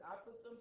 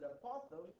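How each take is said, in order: First: "apothem" with the stress up front and a short a, AP-uh-them; first-syllable stress. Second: "apothem" stressed on the middle, uh-POTH-um; weak opening a, then hit POTH in "apothem"; second-syllable stress. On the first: Teacher showing one variant to students, "apothem" stressed on the first syllable. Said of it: "Some people pronounce it apothem". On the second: Teacher showing the other variant to students, "apothem" stressed on the second syllable. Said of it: "some other pronounce it apothem". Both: Shown as a demonstration.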